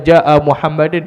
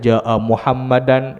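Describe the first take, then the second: First: The name ends with an i-vowel plus n. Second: The name ends with an a-vowel plus n. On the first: "Tuan tak boleh baca" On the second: "tapi tak betul di sudut kaedahnya"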